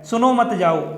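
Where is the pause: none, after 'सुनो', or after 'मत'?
none. It is said without any pause.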